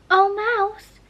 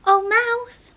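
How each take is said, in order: First: High, louder formal address; calling the mouse. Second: Higher, louder repeat of the call; calling again. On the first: Alice hails the mouse in the pool, high and formal. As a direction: call out grandly to a mouse. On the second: Alice repeats her grand hail to the silent mouse. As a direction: call the mouse once more, more insistently. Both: A narrator's reading.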